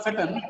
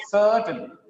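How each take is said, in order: First: "certain" with a short, light first vowel; wrong short vowel. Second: "certain" with a long, strong SER; long sound. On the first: Teacher showing the mistake, short vowel in "certain". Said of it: "it's not certain". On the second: Teacher correcting the class, long first vowel in "certain". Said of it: "It's a long sound". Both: Shown as a demonstration.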